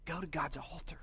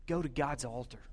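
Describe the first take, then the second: First: Hushed whispered repeat of the line; soft intimate whisper, almost no voice. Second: Said in the usual way. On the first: Shown as a demonstration. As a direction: breathe it as a whispered echo.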